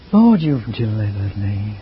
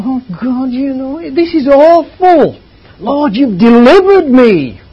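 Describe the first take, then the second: First: Low, slow, drooping delivery; the dull take of the verse; depressive reading. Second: High, loud, slow and soaring; the uplifting take of the verse; lifted, joyful reading. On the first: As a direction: drag it down like a dreary reader. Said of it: "depressive in the way it was read". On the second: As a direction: make it soar upward. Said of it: "deliverance is the lifting up". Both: Shown as a demonstration.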